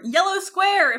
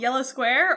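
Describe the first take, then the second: First: The title is said loudly, as if shouted. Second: The title is said at a normal volume.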